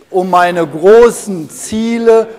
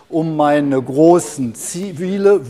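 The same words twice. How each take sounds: First: It is spoken loudly. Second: It is spoken at a normal volume.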